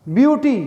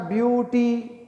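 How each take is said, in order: First: Said in the usual way. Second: beauty drawn out as two separate beats, view and टी; split into syllables. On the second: Shown as a demonstration. Teacher showing two mouth movements, beauty broken into two syllables. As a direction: say beauty slowly in two parts, softer. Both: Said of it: "दो movements हैं".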